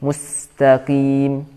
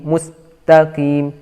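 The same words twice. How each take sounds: First: The S sound flows on into the T. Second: The S sound is cut short. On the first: The speaker calls it right. "sinnya masih terdengar suaranya" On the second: The speaker calls it wrong. "jadi bukan mustaqim"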